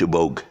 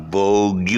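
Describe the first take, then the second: First: "Vogue" as short "vohg"; one-beat Vogue. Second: "Vogue" stretched into "VOG-YOU"; wrong two-beat Vogue. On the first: Friend giving the correction, "Vogue" as one-beat vohg. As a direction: end "Vogue" on a hard G, nothing after. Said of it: "because the G U E becomes". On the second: Friend correcting the guy, "Vogue" as mistaken vog-you. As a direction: sound the silent ending of "Vogue" as "you". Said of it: "it's not Vogue". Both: Shown as a demonstration.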